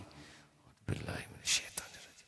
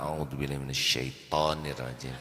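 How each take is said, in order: First: It is said slowly and calmly, softly. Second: It is said harshly and angrily at someone. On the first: It is a quiet prayer for one's own protection. The speaker calls it right. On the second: It attacks the other person and worsens the anger. The speaker calls it wrong. "Tonirrajim ini seperti menyiram bensin ke api"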